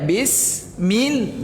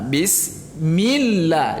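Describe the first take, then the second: First: Both syllables carry the same equal stress. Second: The first syllable is low; millah is stressed. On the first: The speaker calls it wrong. "sama rata aja dibuatnya bis mil ... enggak boleh" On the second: The speaker calls it right. "di millahnya itu ditekankan"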